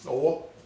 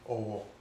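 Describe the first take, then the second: First: It carries the tone pattern meaning hand. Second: It carries the tone pattern meaning respect. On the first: It means a hand. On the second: It means respect.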